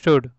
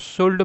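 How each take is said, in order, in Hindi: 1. इस शब्द में L की ध्वनि मूक (साइलेंट) है। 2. इस शब्द में L की ध्वनि उच्चारित होती है। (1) "शुड होता है, सिंपल ऐसे" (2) "इसको शुड मत पढ़ना"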